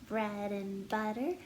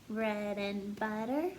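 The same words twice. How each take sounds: No difference in how they are said.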